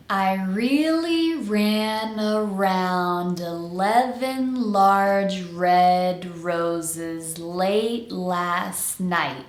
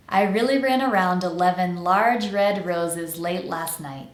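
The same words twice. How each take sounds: First: Very slow tongue twister, vowels stretched and every word connected. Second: Said in the usual way. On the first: Shown as a demonstration. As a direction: draw it out slowly for learners to follow. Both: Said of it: "say the entire tongue twister slowly".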